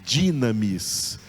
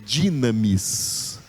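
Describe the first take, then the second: The two takes are said the same way.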